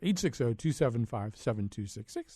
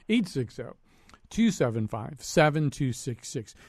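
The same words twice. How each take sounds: First: The number is said at a quicker pace. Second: The number is said at a slower pace.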